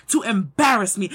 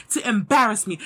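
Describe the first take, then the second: No difference in how they are said.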